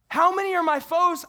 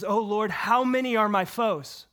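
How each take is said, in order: First: "How" hit hard, much higher and louder; re-read "How many are my foes?" with a pleading, pressing "How"; impassioned stress. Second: Said in the usual way. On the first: Shown as a demonstration. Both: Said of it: "Do you hear it?".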